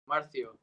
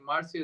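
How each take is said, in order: First: It is said with a lisp. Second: It is said without a lisp.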